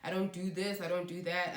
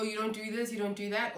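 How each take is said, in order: First: Lightly Americanized accent; American accent. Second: Said in the usual way. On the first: Real, not acted. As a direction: slip briefly into an American accent. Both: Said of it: "picked up an American accent".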